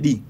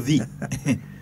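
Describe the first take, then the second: First: It starts with a hard D sound. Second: It starts with a TH sound. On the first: The speaker calls it wrong. "if you say D, you get a lash" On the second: The speaker calls it right. "You have to say the. You have to pronounce it"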